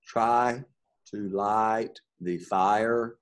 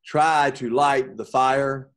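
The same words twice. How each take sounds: First: Very slow, stretching each I sound; slow, soft demo of the I sound; stretched vowel sounds. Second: Slow, deliberate line; slow demo line; slow example read. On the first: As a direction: draw out every vowel. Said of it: "you hear that I sound again". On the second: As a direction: read it slowly. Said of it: "All right". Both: Shown as a demonstration.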